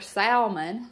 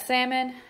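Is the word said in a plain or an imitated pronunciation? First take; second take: imitated; plain. First: The word is said in an imitated, different pronunciation. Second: The word is said in an ordinary, plain pronunciation. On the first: This is how someone else likes to say it. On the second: This is the usual way to say it.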